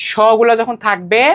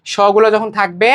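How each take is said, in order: Both takes have the same delivery.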